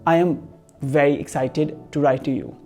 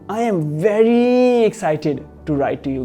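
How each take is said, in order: First: It is said flatly, with no special emphasis. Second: It is said excitedly, with a stretched, stressed "very". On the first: The speaker calls it wrong. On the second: The speaker calls it right.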